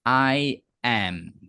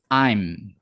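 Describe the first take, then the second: First: It is said as two separate words. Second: It is contracted into one syllable. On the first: "kalau tidak dipendekkan bacanya" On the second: "Kalau dipendekkan jadi cuma em. Jadi bacanya"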